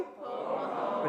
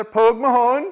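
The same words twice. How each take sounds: First: Said in the usual way. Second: "Pogue Mahone" loud and high, rising on "Mahone"; Gaelic demo. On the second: Shown as a demonstration. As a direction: call "Pogue Mahone" out, lifting "Mahone". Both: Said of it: "Now do it together".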